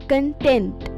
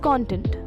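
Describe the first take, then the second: First: The stress is on the second syllable. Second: The stress is on the first syllable. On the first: It means satisfied with what one has. "the stress shifts to the second syllable" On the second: It refers to what something contains. "The first syllable rhymes with Don and John, while the second syllable sounds like tent"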